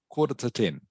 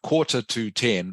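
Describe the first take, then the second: First: The word 'to' is reduced and run together. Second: The word 'to' is full and separate. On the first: The speaker calls it right. "it's almost like this is all one word" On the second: The speaker calls it wrong. "It's not quarter to ten"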